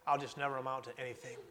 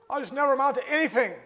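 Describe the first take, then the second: First: Quick, soft mutter of defeat; muttered self-doubt. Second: Quick, higher, louder cry of hopelessness; despairing outcry. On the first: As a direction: mumble it under your breath, giving up. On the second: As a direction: throw it out like a desperate wail. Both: Acted. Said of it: "We hear that saying".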